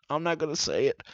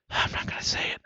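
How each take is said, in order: First: Mutter. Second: Unvoiced whisper. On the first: Shopper muttering to himself, quietly. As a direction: say it under your breath. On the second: Shopper whispering to himself, whispered. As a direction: breathe it with no voice. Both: Real, not acted.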